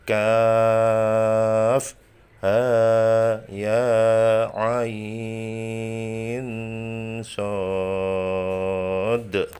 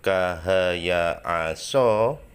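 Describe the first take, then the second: First: The letters are read with full letter names. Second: The letters are read as short syllables. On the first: The speaker calls it right. "tetapi dibaca kaf ha ya ain sod" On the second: The speaker calls it wrong. "tidak dibaca kahaya aso"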